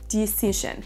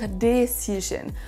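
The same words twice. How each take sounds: First: It is pronounced the English way. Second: It is pronounced the French way. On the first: The speaker calls it right. "comme si vous aviez deux i" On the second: The speaker calls it wrong. "copier la prononciation par rapport au français"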